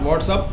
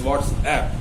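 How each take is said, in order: First: The last syllable sounds like 'up'. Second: The last syllable sounds like 'app'. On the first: The speaker calls it wrong. "This is not व्हाट्सअप" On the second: The speaker calls it right. "This is व्हाट्सएप"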